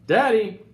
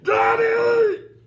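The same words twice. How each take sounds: First: It is said a little louder. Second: It is yelled as loud as possible.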